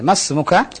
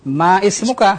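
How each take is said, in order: First: Ma runs straight into smuka without a stop. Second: A glottal stop separates ma from ismuka. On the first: The speaker calls it right. "Tapi kalau di tengah ditulis tapi tidak dibaca" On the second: The speaker calls it wrong. "Ma ismuka adha khata"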